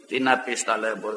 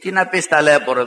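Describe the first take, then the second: First: Quiet pitying remark. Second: Said in the usual way. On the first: Retold or imitated. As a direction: lower and softer, pitying. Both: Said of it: "του λέω".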